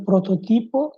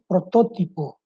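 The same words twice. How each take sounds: First: "prototipo" higher, stressed pro-to-TI-po; Spanish stress on TI. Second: "protótipo" stressed pro-TÓ-ti-po; Portuguese stress on TÓ. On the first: Teacher showing Spanish word, stressed on TI. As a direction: lift the TI in "prototipo". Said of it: "Em espanhol". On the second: Teacher contrasting Portuguese, stressed on TÓ. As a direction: hit TÓ in "protótipo". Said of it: "e em português". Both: Shown as a demonstration.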